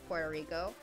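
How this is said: It is said with an English pronunciation. "in English, it's"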